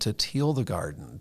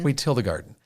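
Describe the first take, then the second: First: The vowel in till sounds like teal. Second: The vowel in till is short, as in 'ill'. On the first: The speaker calls it wrong. "You said teal" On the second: The speaker calls it right. "There we go"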